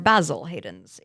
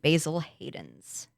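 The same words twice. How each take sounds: First: Basil is said with a British pronunciation. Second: Basil is said with an American pronunciation.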